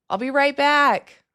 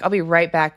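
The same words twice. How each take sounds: First: Much higher and slow, drawn out; playful high lilting reassurance; sing-song promise. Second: Said in the usual way. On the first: Pretend. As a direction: coo it to the viewers. Begging viewers not to leave.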